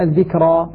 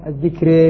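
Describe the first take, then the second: First: Said in the usual way. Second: الذكرى pronounced "adh-dhikré", final long e; full imala. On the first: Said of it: "أيضًا الذكرى". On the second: Shown as a demonstration. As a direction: end الذكرى on a thinned ra tilted toward ya. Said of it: "الحديث هنا عن الإمالة الكبرى".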